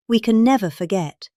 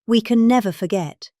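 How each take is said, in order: Both takes have the same delivery.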